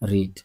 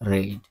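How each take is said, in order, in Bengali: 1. এটি বর্তমান কালের উচ্চারণে বলা হয়েছে। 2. এটি অতীত কালের উচ্চারণে বলা হয়েছে। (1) "পড়ার ইংলিশ কি? রিড।" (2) "উচ্চারণের ক্ষেত্রে এখানে একটু পার্থক্য রয়েছে। এটা উচ্চারণটা হবে রেইড।"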